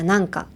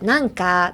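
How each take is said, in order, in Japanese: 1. 標準語のイントネーションです。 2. カジュアルなギャル風のイントネーションです。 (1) "普通の日本語だったら" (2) "ギャルだったら"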